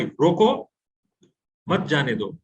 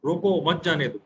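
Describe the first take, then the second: First: "रोको" on a rise, clear stop, then "मत जाने दो"; pause after first word. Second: "रोको मत जाने दो" run together, no stop after "रोको"; no pause. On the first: Teacher showing how a stop sets meaning, long pause after "रोको". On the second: Teacher showing meaning change without the stop, "रोको मत" joined. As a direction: join "रोको" straight onto "मत". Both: Shown as a demonstration. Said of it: "लेकिन वहां नहीं रुके".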